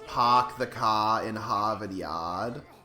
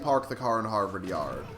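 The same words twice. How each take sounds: First: It is said in a Boston accent. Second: It is said in a standard accent.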